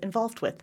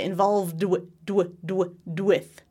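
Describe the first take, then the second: First: The final D is unvoiced before 'with'. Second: The final D is voiced before 'with'. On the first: "You really don't hear that voicing at all" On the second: "I would say involved with"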